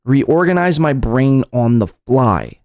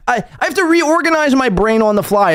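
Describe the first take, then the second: First: Slow, drawn-out quoting at normal pitch; slow repetition. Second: High-pitched mock complaint; mocking imitation. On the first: Retold or imitated. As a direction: draw the quoted words out slowly. Repeats the mocked phrase slowly. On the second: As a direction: parody his whining in a much higher voice. Mock quote of streamer's complaint.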